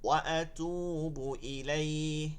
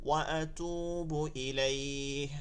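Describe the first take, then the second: Both takes have the same delivery.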